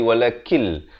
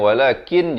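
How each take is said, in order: First: The final n merges into an l sound. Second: The word ends with a clear n sound. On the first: This is how it is read before the next word. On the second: This is the underlying form.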